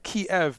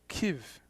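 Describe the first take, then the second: First: It uses the familiar English consonants. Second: It uses different, local-sounding consonants. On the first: The speaker calls it wrong. "I used to say that Kiev" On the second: The speaker calls it right. "someone told me from there that's Kiev ... Different consonants"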